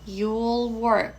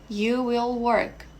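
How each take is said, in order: First: Will is shortened and joined to you. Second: Will is said as a separate full word.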